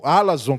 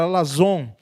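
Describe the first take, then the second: First: Alazon stressed on the opening A; stress on first syllable. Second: Alazon with the stress on its final ZON; stress on last syllable. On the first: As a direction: say "alazon" as A-la-zon, front-stressed. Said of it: "a sílaba tônica é, é, do grego é na, é, primeira". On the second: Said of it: "a sílaba tônica é". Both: Shown as a demonstration.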